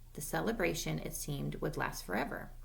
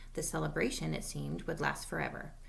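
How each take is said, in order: The two takes are said the same way.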